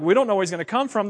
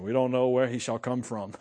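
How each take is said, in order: First: Quick, offhand mock cluelessness; clueless yahoos. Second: Low-pitched, mock-mystical pronouncement; mock mysticism. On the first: Leaders who should know better admit ignorance, cluelessly. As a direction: rattle it off like clueless know-it-alls. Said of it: "The yahoos who should know better". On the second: Leaders arguing about Messiah's origin, mock-mystical. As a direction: imitate someone suddenly turning mystical. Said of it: "mysticism all of a sudden".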